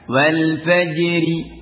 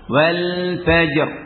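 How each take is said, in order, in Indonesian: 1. R di akhir ringan, diikuti i pendek. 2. Kata berhenti pada r akhir yang berat dan tebal. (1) "di akhir kalimat kalau tentunya bukan waqaf" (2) "dibaca tebal karena ra waqaf"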